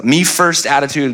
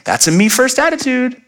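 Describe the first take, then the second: First: Said in the usual way. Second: High, sing-out parental scolding; parent to children. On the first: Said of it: "This is the terminology I use". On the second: Retold or imitated. Parent naming the children's selfishness, high mock scolding. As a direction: call out the behavior in a raised pitch. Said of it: "I use for our children".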